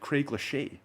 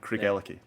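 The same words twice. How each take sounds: First: The name is given a French-sounding pronunciation. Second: The name is given its usual local pronunciation. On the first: The speaker calls it wrong. "I thought it was a, a French brand, Craigellachie" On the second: The speaker calls it right. "All rolls off the tongue"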